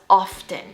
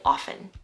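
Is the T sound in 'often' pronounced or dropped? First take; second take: pronounced; dropped. First: The T sound is clearly pronounced. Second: The T sound is left out. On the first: The speaker calls it wrong. "really emphasizing the T often" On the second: The speaker calls it right. "we kind of just drop the T and we just say often"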